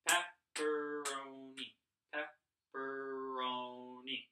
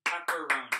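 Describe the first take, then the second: First: "Pepperoni" drawn out slowly, each syllable held apart. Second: Said in the usual way. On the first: Shown as a demonstration. Teacher helping pupils count the sounds in "Pepperoni", slowly syllable by syllable. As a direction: stretch "Pepperoni" into four separate, even sounds. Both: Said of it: "How many different sounds do you count".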